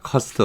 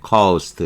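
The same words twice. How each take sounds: First: The vowel is said short. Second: The vowel is said long. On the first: The speaker calls it wrong. "이렇게 자꾸 짧게 발음하는데 제 발음이 잘못된 겁니다" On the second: The speaker calls it right. "이렇게 길게 발음하는 거예요"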